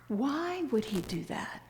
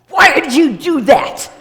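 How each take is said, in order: First: The question sounds curious and open. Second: The question sounds accusing and harsh.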